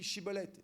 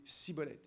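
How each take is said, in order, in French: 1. Le mot commence par un son 'sh'. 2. Le mot commence par un son 's'. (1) "le son « che »" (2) "ils n'arrivaient pas à dire chibolette, ils disaient cibolette"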